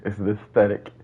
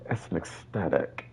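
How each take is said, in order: First: It is said in the speaker's own voice. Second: It is said imitating how the community says it.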